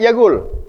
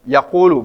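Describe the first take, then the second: First: The word ends on the l consonant. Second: The word ends with a final u vowel. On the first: This is everyday colloquial Arabic. The speaker calls it wrong. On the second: This is the classical reading. The speaker calls it right. "bacaan fasahanya"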